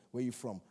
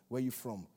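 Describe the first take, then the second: No difference in how they are said.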